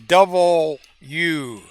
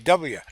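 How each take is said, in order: First: The letter name is said in full, three syllables. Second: The letter name is said quickly and clipped short. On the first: The speaker calls it wrong. "you can't say double U" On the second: The speaker calls it right. "You have to say W. ... But you got to do it fast"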